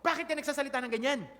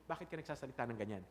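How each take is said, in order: First: It is said in a harsh tone. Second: It is said in a gentle tone.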